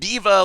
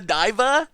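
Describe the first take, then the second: First: The name sounds like the word 'diva'. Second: The name sounds like the word 'diver'. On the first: "like I don't know a a, a, a singer" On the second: "like scuba diva"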